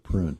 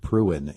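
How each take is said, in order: First: The word is said as one short syllable. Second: The word is drawn out into two syllables. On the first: "instead of prune" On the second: "why people pronounce it pruin"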